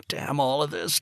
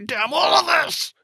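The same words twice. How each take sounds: First: A touch louder, rising anger; angry curse. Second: Much higher, much louder, at the peak; full scream. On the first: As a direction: start the curse bitter, holding back. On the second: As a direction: scream it with everything, on the verge of tears. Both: Acted. Father raging after the call.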